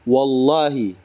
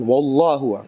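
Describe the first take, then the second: First: The word ends with an 'i' vowel. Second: The word ends with a 'u' vowel. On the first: The speaker calls it right. "Yang benar itu dibaca wallahi" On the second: The speaker calls it wrong. "Kalau ada orang mengatakan wallahu, keliru dia"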